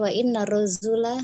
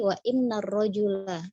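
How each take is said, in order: First: The middle consonant sounds like a z. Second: The middle consonant sounds like a j. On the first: The speaker calls it wrong. "Bunda membacanya wa inna rozula begitu" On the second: The speaker calls it right. "dengan jim ar-rojul"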